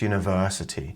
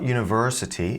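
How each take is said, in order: First: The R sound in the word is silent. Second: The R sound in the word is pronounced. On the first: The speaker calls it right. "you also can't hear the R in university" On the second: The speaker calls it wrong. "So it's not university"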